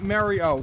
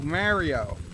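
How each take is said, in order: First: The name begins with the sound of 'Mary'. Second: The name begins with the sound of 'Mar'. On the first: The speaker calls it wrong. "not Mary O" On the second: The speaker calls it right.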